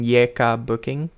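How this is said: The letters are said with Indonesian pronunciation.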